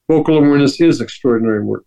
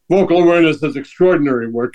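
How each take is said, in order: First: It is said in a calm, sincere tone. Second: It is said in an arrogant, boastful tone. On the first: The speaker is stating a personal truth. The speaker calls it right. "That's not arrogance. That's my truth" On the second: The speaker is showing off. The speaker calls it wrong. "that's stupid and arrogant"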